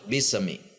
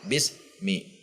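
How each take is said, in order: First: The s bounces before mi. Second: There is a break between bis and mi. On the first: "atau mantul" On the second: "yang ada jeda"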